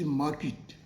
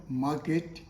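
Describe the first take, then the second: First: 'market' as mah-kit, short i; correct pronunciation. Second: 'market' as mah-ket, with an e vowel; wrong pronunciation. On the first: Teacher reminds learners, kit ending. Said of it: "it is market". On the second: Teacher rejects it for learners, ket ending. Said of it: "the word is not market". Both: Shown as a demonstration.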